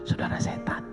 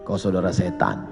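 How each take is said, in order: First: It is said in a softened, gentle tone. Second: It is said in a harsh, blunt tone.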